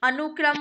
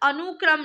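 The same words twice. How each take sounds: First: The vowel after 'an' is short. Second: The vowel after 'an' is long. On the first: The speaker calls it right. "छोटे ऊ की मात्रा चढ़ेगी" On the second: The speaker calls it wrong. "ऊ की मात्रा बहुत देर तक आवाज आ रही है"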